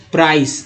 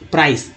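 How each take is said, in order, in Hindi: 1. इस शब्द का अंत s की आवाज़ से होता है। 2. इस शब्द का अंत s की आवाज़ से होता है।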